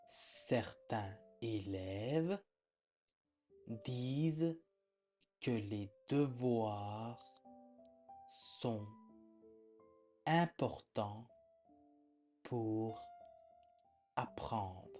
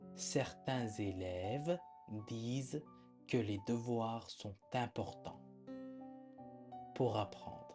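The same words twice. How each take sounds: First: It is read slowly, like a dictation. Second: It is read faster, at normal speaking speed.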